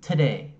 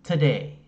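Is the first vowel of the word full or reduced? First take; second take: reduced; reduced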